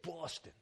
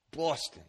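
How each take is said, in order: First: Soft "Boston", chin out, dropped r-less "Bahstuh"; Boston accent. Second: "Boston" said like a local, chin out, "Bahstuh"; Boston accent. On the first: Preacher repeats the Boston demo quietly, Boston accent. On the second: Preacher shows the congregation how Bostonians say it, Boston accent. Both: Shown as a demonstration. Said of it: "You gotta stick your chin out when you say it".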